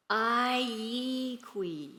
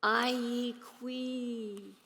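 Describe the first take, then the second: First: "I ye qui" in Yurok, each vowel drawn out very slowly; Yurok phrase. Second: "I ye qui" very drawn out and softened, the last syllable held long; deeply lonesome Yurok. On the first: Poet shows audience her poem's Yurok line, "I ye qui" slowly drawn out. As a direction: say "I ye qui" slowly, stretching every syllable at usual volume. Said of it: "is repeated in Yurok". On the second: Poet shows really missing something, "I ye qui" softly, longingly drawn out. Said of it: "if you really miss something". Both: Shown as a demonstration.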